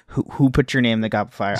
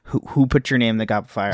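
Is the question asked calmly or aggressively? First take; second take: aggressively; aggressively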